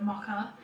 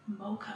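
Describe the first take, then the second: First: It is said in a non-American accent. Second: It is said in an American accent. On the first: "how I say the word mocha" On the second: "everyone that was saying mocha on the shoots was going mocha"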